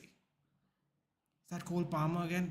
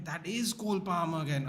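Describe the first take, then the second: First: "Is that Cole Palmer again?" asked slowly, as a check; questioning. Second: "is" leaned on to confirm, falling end; stress on IS. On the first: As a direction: ask "Is that Cole Palmer again?" unsure, drawn out. Checking who the player is. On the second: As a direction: confirm it, punching the word "is". Confirming who the player is. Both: Real, not acted.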